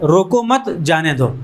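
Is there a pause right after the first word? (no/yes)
no. There is no pause after the first word. The meaning is left open by the missing comma. "अगर comma नहीं है तो एक ये भी पढ़ सकता है"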